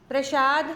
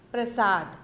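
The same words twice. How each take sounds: First: प्रसाद said with sh, prashad, rising; प्रसाद as the wrong prashad, rising; wrong form. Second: प्रसाद said with s, prasad, falling; प्रसाद as the right prasad, falling; correct form. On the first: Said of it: "ये गलत शब्द है". (गलत उच्चारण प्रसाद, श के साथ) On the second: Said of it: "ये उनका सही रूप है". (सही उच्चारण प्रसाद, स के साथ) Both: Shown as a demonstration.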